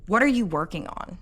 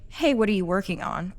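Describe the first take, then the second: First: "What are you working on?" as a pointed accusation; accusing question. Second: Light, casual curious ask; friendly question. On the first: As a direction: ask it like you suspect them of slacking. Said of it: "the second one sounds like an accusation". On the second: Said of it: "They sound completely different". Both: Shown as a demonstration.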